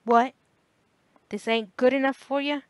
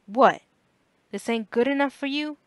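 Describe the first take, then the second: First: Loud, higher, angry snap; a rough father's indignant snap; father snapping. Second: Loud, higher indignant retort; the same rough father, louder on What; father snapping again. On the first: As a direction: bark it at the bored teenager. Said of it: "his father would snap". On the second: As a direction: throw it back in his face. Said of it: "his father said again". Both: A narrator's reading.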